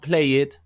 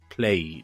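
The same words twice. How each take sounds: First: The ending is said as an extra syllable. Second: The ending is a plain D sound. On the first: The speaker calls it wrong. "not played" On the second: The speaker calls it right. "substituting the ed for a D sound"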